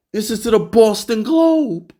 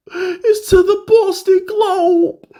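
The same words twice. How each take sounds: First: Said in the usual way. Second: Much higher, slow, stretched disbelief; outraged he went to the Boston paper, in a mock high squeal; incredulous squeal. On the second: Real, not acted. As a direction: squeak it out like you can't believe it.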